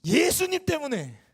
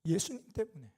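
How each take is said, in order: First: Higher, louder and slow, bursting out; angry outburst. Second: Said in the usual way. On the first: Retold or imitated. Pastor finally exploding at the young man, shouting slowly. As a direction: let the held-back anger explode. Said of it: "분노를 쏟아부으면서 대답을".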